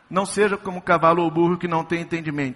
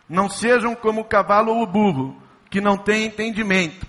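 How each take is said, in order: First: There is no pause after 'burro'. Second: There is a pause after 'burro'. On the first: Only some horses and donkeys lack understanding. The speaker calls it wrong. "se não tivesse a vírgula, significaria assim" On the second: No horse or donkey has understanding. The speaker calls it right. "Ainda bem que tem essa vírgula"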